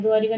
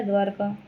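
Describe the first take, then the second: First: द्वारिका said with a short i after र, dwaa-ri-ka; teacher showing the wrong spelling द्वारिका with an extra i; wrong form. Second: द्वारका said with no vowel after र, dwaar-ka; teacher giving the right द्वारका, two clean syllables; correct form. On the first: Teacher warns students: द्वारिका with a short i in the middle. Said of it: "द्वारिका नहीं होता". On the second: Teacher answers students: द्वारका, dwaar-ka, no i. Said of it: "क्या होता है?". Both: Shown as a demonstration.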